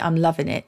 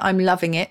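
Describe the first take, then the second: First: The word 'loving' ends without a g sound. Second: The word 'loving' ends with a g sound.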